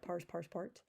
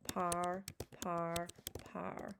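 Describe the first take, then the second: First: The three forms end in different sounds. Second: The three forms sound exactly alike. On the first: This is only how to think of the spelling. The speaker calls it wrong. "just so you can hear the difference, but don't say that out loud" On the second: This is how it is actually spoken. The speaker calls it right. "out loud, they all sound the same"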